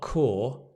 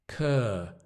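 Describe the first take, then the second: First: The vowel is long and rounded, like 'core'. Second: The vowel is short and central, like 'cur'. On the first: The speaker calls it wrong. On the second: The speaker calls it right.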